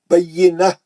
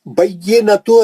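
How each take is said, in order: First: The word ends in a soft 'h' sound. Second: The word ends in a full 'tu' syllable. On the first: The reader stops at the end of the verse. "हा का आवाज आना है" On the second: The word is read on without stopping. "बय्यिनतु है"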